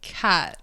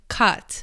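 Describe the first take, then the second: First: The vowel is front, close to an e sound. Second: The vowel is short and central, as in cut. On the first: This is an American-sounding way of saying the name. "cat like very like American sounds, like almost like an E sound" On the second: This is the usual way the name is read. "normally you'd read it like cut"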